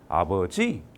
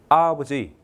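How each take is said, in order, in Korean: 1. 강세는 세 번째 음절에 있어요. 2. 강세는 첫 번째 음절에 있어요. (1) "세 번째 줄게요" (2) "강세를 앞에 줬습니다"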